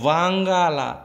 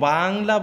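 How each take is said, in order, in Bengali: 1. শব্দটি লম্বা করে, তিনটি দল দিয়ে উচ্চারিত হয়। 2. শব্দটি ছোট করে, দুটি দল দিয়ে উচ্চারিত হয়। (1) "এই যে অ্যাকচুয়াল উচ্চারণ দেখো" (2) "আমরা যদি এটাকে বাংলা বলতাম"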